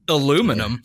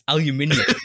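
First: The word is said with four syllables. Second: The word is said with five syllables. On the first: The speaker calls it wrong. "You just remove one" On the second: The speaker calls it right. "It's aluminium"

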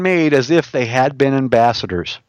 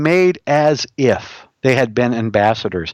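First: The phrase is read quickly. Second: The phrase is read slowly. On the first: The speaker calls it wrong. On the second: The speaker calls it right.

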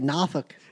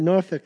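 First: It is said with a strong Southern accent. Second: It is said without a strong Southern accent.

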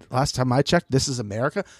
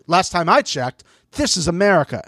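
First: It is said plainly, without attitude. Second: It is said with a sassy attitude.

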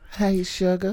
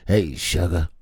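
First: It is said in a put-on southern woman's voice. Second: It is said in a put-on southern man's voice. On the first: The speaker calls it right. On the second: The speaker calls it wrong.

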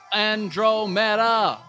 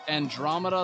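First: It is said in the singer's unusual way. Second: It is said in the usual, familiar way. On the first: "the way he says Andromeda" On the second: "instead of Andromeda, like you're familiar with hearing it"

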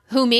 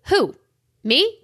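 First: The two words run together without a pause. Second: The two words are split with a pause.

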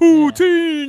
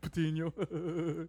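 First: It is said with hyped announcer energy. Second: It is said flatly, like casual conversation.

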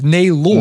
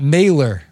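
First: The name does not end with an 'er' sound. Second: The name ends with an 'er' sound. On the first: The speaker calls it right. "It's Nabor" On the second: The speaker calls it wrong. "your name's not Nabor with an E-R"

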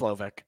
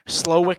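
First: The second syllable starts with a v sound. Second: The second syllable starts with a w sound. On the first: The speaker calls it right. "I think it's Slovic" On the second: The speaker calls it wrong. "Slowick doesn't sound right"

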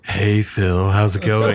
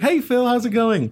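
First: It is said in a loaded, suggestive way. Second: It is said in a casual, friendly way.

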